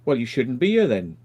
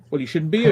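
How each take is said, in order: First: Said in the usual way. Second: Louder and higher "you shouldn't be here"; raised retort. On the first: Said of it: "And I went". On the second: Retold or imitated. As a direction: throw his words back at him, raised. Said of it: "And I said".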